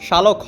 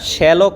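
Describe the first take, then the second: First: The first syllable has a plain 'sha' sound. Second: The first syllable has a 'shya' sound. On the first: The speaker calls it wrong. "এটা শালক না" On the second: The speaker calls it right. "এটা শ্যালক হবে"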